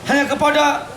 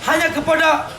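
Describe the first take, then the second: No difference in how they are said.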